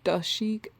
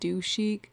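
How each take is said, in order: First: The middle word has a short 'duh' vowel. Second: The middle word has a long 'doo' vowel. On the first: This is how the speaker has been saying it. "I've been saying like Freak de Chic" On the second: This is how the name is meant to be said. "it's like do chic"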